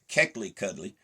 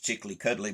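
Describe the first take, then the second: First: The word begins with a k sound. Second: The word begins with a ch sound. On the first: This is the original form of the word. The speaker calls it right. "the correct pronunciation is" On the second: This is the altered form used over time. The speaker calls it wrong. "has been convoluted over time to, to be pronounced"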